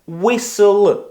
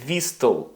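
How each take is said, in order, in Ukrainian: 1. Звук t німий. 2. Звук t вимовляється. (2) "а не whistle"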